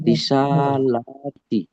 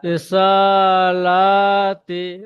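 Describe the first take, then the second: First: Slow reading. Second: Drawn out slowly and rising; slow demo reading. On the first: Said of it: "যেমন?". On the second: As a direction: stretch every syllable slowly. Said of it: "teacher demonstrates reading". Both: Shown as a demonstration.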